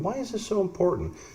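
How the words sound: It is said in a soft voice.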